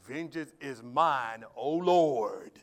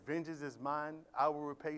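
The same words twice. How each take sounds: First: Slow, louder, drawn-out vengeful plea; slow loud mocking of how people twist the verse; mock vengeful prayer. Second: Said in the usual way. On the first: Shown as a demonstration. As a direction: ham up a grudge-holding prayer. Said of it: "we twisted that scripture. We say it like this". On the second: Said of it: "We say it like this".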